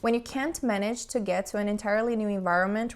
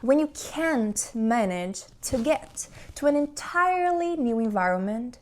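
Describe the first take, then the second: First: It is read flatly, without emotion or intonation. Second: It is read expressively, with lively varied intonation. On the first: "sem emoção, sem entonação, sem interpretação" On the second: "Agora vamos interpretar"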